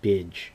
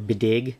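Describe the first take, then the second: First: The name has one syllable ending in a soft 'dj'. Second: The name has two syllables ending in a hard 'g'. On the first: The speaker calls it right. "properly pronounced Bidge" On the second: The speaker calls it wrong. "I thought it, it was originally Bididge or Bidig"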